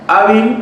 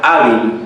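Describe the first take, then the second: First: "Hábil" with the opening A stressed and pitched high; stress on first syllable. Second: Said in the usual way. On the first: Shown as a demonstration. Teacher showing students where the stress falls, "Hábil" stressed on A. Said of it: "lleva la mayor fuerza de voz en A". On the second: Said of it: "lleva la mayor fuerza de voz".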